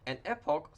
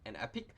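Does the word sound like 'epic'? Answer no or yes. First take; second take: no; yes. First: The word does not sound like 'epic'. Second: The word sounds just like 'epic'.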